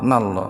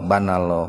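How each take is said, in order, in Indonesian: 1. Dua suku kata pertama dihilangkan, tinggal dua. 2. Suku kata pertama dihilangkan, tinggal tiga. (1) "Aya nu" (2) "Kan sok aya nu tasbihna kieu"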